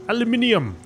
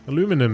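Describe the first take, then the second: First: It is said the British way, with five syllables. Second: It is said the American way, with four syllables.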